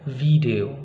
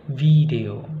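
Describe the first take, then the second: The two takes are said the same way.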